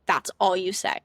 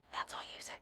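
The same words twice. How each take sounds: First: Said in the usual way. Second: Whispered repeat; a soft whispered echo of the advice. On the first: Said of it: "repeated in whisper". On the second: Shown as a demonstration. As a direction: breathe it out in a whisper. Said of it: "repeated as a whisper".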